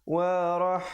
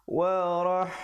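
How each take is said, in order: Both takes have the same delivery.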